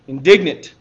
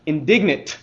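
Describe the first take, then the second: First: Indignant said again louder, firm and weighted; emphatic repeat of Indignant. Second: Hushed Indignant; dramatic reveal. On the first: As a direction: hammer Indignant home the second time. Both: Shown as a demonstration. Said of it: "are you ready for it?".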